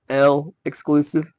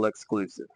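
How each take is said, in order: First: The L is said as a separate letter. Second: The L is joined onto the following word. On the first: "I like to call it L exclusive because it's Blue de Chanel L" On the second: "the proper way to say it"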